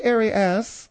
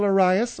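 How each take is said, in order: First: Arias said air-ee-ASS; slow Arias with ASS at the end; French-style Arias. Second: Arias said uh-RYE-us; English Arias, stressed on RYE; everyday Arias pronunciation. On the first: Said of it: "the strict French is Arias". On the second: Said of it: "or if you will". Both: Shown as a demonstration.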